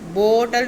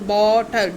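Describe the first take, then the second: First: The first vowel sounds like 'oh'. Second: The first vowel sounds like 'aw'. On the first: The speaker calls it wrong. "बोतल नहीं" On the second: The speaker calls it right. "जैसे B ए डब्ल्यू लिखा है आपने imagine करना है"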